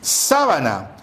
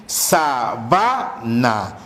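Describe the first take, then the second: First: SÁbana, first syllable lifted and stressed; sábana with the accent right on sá. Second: SaBAna in slow, separate syllables, BA stressed; stress on middle syllable. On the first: Teacher contrasting it with another word, sábana stressed on SÁ. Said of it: "que es distinto a decir". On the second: Teacher showing students a distinctive accent, sabana stressed on BA. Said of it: "marca un carácter distintivo". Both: Shown as a demonstration.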